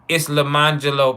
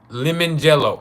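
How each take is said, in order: First: It sounds like one name, 'Le-man-gelo'. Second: It sounds like the two words 'lemon jello'. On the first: The speaker calls it right. "It's Lemangelo, player" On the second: The speaker calls it wrong. "I want to make sure I'm pronouncing this right"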